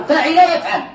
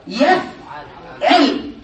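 First: فعل يفعل said faʕila yafʕal, with a fatha on the ain of يفعل; corrected form. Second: يفعل drawn out slowly as yafʕil, with a kasra on the ain; slow, mistaken يفعل said yafʕil, then caught; slip of the tongue. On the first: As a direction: correct يفعل as yafʕal, said briskly after the slip. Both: Real, not acted. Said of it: "عفوا، آه، عفوا".

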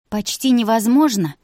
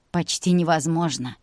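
First: Raised, louder echo question; challenging echo. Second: Said in the usual way. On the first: A narrator's reading. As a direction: throw the words back in disbelief.

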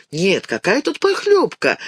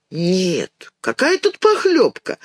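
First: Said in the usual way. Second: Helpless shrug, voice jumping up on похлёбка; puzzled child. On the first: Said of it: "narrator repeats Dinka's thought". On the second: A narrator's reading. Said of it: "повторяет Динка".

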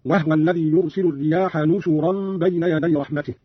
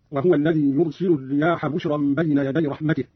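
First: "نشرا" said nushuran, with n and u on sh; nun and damma. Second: Said in the usual way. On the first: Shown as a demonstration. Teacher showing Qalun's reading, nushuran for "نشرا". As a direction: say "نشرا" as nu-shu-ran. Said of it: "بالنون مكان الباء وضم الشين، هكذا". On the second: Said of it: "بالنون مكان الباء".

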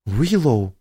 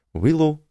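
First: Reproachful exclamation, falling. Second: Said in the usual way. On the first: Acted. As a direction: scold her by name. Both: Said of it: "укоризненно воскликнула Тина".

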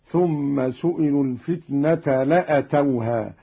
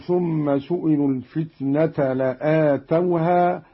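First: لأتوها as la-atawha, with a short a; shortened hamza. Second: Said in the usual way. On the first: Shown as a demonstration. Teacher shows Qalun's reading, لأتوها with a short hamza vowel. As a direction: keep the vowel after the hamza in لأتوها brief. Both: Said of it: "قرأ قالون بقصر الهمزة".

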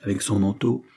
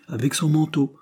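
First: Said in the usual way. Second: "Avec son manteau" high and firm, falling at the end; affirming. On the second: A narrator's reading. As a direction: confirm "Avec son manteau" in a much higher, decided voice. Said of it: "affirma Betsy".

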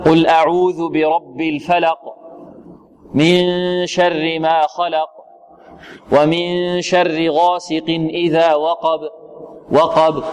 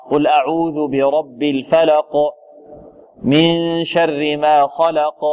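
First: Slow recitation, الفلق and خلق ending with barely any bounce; weak qalqala recitation. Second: Slow recitation, الفلق and خلق ending in a firm clear bounce; strong qalqala recitation. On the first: Teacher showing the weak qalqala that students produce. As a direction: recite slowly and let the final qaf fade. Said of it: "هذا يعتبر ضعف". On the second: Teacher showing the correct strong qalqala for students. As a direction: release the final qaf with force. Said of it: "يخرجها بقوة كما أخرج الحروف الأخرى". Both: Shown as a demonstration.

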